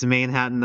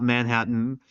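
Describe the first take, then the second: First: "Manhattan" with a long ay, like "main"; pronounced "Mainhattan". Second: Said in the usual way. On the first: Shown as a demonstration. Reminding oneself of the pony city's name, "Manhattan" said as "Mainhattan". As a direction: say the first syllable of "Manhattan" as "main". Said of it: "I gotta remember it's Manhattan". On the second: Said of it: "and not Manhattan".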